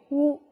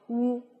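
First: The vowel sounds clear and bright. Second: The vowel sounds dark and muffled. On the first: The speaker calls it right. "发元唇音的时候需要双唇的凸起来拉长口腔共鸣器，获得元唇音色" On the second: The speaker calls it wrong. "不能嘴唇凸起过长或者嘴角下垂……这样呢会使音色听起来比较暗淡，而且这种感觉呢也是比较沉闷的"

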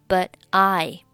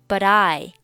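First: The t of 'but' is silent. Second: The t is voiced and linked into 'I'. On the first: "选择but 末尾清辅音t 不发音" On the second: "but 和I 进行一个辅元连读……t 就要浊化一下了"

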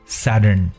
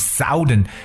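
First: The first vowel is short, as in 'sun'. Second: The first vowel is long, as in 'south'. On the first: The speaker calls it right. "it's actually Southern" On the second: The speaker calls it wrong. "南方是不是读成Southern，那这样就读错了"

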